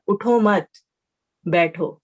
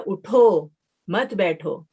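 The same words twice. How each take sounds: First: "اٹھو مت" as one unit, long break, falling "بیٹھو"; pause after مت. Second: Slow, drawn-out "اٹھو", break, then "مت بیٹھو"; pause after اٹھو. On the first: Teacher shows it means stay seated, pausing after "مت". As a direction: stop clearly after "مت", then say "بیٹھو" alone. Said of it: "اٹھنے کی نفی اور بیٹھنے کا حکم". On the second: Teacher shows it means get up, pausing after "اٹھو". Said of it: "اس کا مطلب ہے کہ اٹھ جاؤ". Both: Shown as a demonstration.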